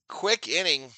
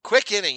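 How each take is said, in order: First: Said in the usual way. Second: Loud, high burst on quick inning; excited call. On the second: Real, not acted. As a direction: belt it out like a home run call. Excited repeat of play call.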